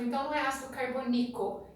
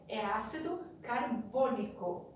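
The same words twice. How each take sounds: First: "carbônico" stressed wrongly on the last syllable, "carboniCO". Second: "carbônico" stressed on "bô", slower; correct stress. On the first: Teacher showing the class a wrong stress on "carbônico". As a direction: say "carbônico" with the stress moved to the final "co". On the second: Teacher correcting the class, stressing "carbônico" on "bô". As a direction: say "carbônico" slowly, leaning on "bô". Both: Shown as a demonstration. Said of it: "a sílaba tônica nunca será a última".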